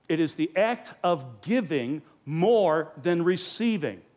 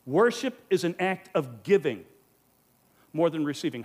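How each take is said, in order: First: "It is the act of giving more than receiving" said slowly, weight on "more"; slow emphatic statement. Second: Said in the usual way. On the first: Shown as a demonstration. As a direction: lean hard on "more", slow and deliberate. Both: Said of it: "one of the most important statements".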